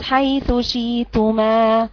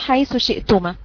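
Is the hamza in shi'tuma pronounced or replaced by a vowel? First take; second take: replaced; pronounced. First: The glottal stop is replaced by a long vowel. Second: The glottal stop in shi'tuma is clearly pronounced. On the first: "الإبدال يجي على التوسط" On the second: "هقرأ بالتوسط مع الإظهار والتحقيق"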